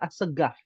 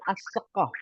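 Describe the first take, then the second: First: It is said with Yemeni dialect pronunciation. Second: It is said with standard Arabic pronunciation. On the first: "bukan As-Segaf. Itu logat Yaman" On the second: "bahasa Arabnya adalah As-Sekaf"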